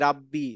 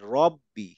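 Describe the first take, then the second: First: The first vowel is an open 'a' sound. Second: The first vowel is a rounded 'o' sound. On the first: The speaker calls it wrong. "আসলে রাব্বি না" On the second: The speaker calls it right.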